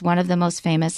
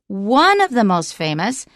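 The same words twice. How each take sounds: First: The pitch stays flat with little energy. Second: The pitch moves widely with exaggerated energy. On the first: The speaker calls it wrong. "the sentence is really flat" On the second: The speaker calls it right. "You really need to ham it up"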